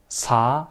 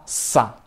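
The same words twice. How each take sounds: First: "sa" with a light, relaxed s; plain normal SA. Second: "sa" with a long hissed, tense s. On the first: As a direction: say sa easily, vowel lifted. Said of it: "piensa que sa normal". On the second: Teacher showing students that sound, tense hissed sa. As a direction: hold the s, then a short tight a. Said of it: "es tensa". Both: Shown as a demonstration.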